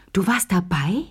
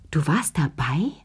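First: Astonished. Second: Hushed, breathless question; stunned whisper. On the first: Lea repeats her question to Chérie, openly amazed. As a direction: repeat it aloud in disbelief. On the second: Lea stops laughing, whispers her shock to Chérie. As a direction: whisper it in disbelief. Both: Acted. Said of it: "Sie hörte auf zu lachen".

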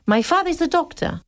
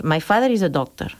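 First: "My father is a doctor" much higher and sing-song; "My father is a doctor" with a wide, melodic tune; wide English pitch range. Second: "My father is a doctor" low and level; "My father is a doctor" kept flat and narrow; narrow Spanish pitch range. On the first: Teacher shows the wide English pitch range, sing-song. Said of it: "ellos dirían". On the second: Teacher shows the narrow Spanish pitch range, flat. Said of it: "Y nosotros diríamos". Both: Shown as a demonstration.

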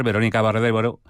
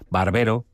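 First: "Barbero" slurred as "Baréro", dropping the second b; slip on a name. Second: "Barbero" said carefully in full, both b sounds clear; corrected name. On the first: Newsreader trips over the spokeswoman's name: "Barbero" blurred into "Baréro". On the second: Newsreader correcting herself on air: "Barbero" said clearly. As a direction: fix the name, "Barbero" cleanly with every syllable. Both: Real, not acted. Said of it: "perdón".

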